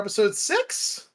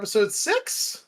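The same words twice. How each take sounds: First: It is said in an uncertain, hesitant tone. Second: The same.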